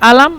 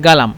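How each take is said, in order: First: The word starts with a glottal catch, no g. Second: The word starts with a hard g sound. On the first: This is how it is said in Egyptian dialect. "মিশরীয়রা বলে" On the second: This is how it is said in Saudi dialect. "Saudi আরবরা বলে"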